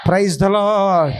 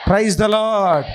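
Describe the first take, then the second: No difference in how they are said.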